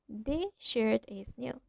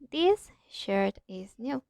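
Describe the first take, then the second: First: The s blends into the following sh. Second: The s is kept separate before the sh. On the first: "We say that" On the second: "instead of"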